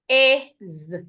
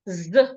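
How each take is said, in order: First: The word is said with its full vowel. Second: The word is reduced to a bare consonant. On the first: "That is the strong form" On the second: "weak form"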